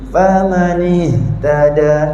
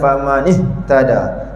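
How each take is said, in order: First: The h breath flows out gradually. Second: The h breath is cut off abruptly. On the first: The speaker calls it right. "angin dia hidup... masuk sikit-sikit" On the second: The speaker calls it wrong. "tak nak baca famanih tada"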